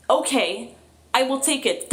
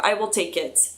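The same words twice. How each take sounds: First: I will take it, lifted high and eager; grateful I will take it, sung up high; eager acceptance. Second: Said in the usual way. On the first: Real, not acted. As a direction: pounce on I will take it, pitched up. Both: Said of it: "That's an answer".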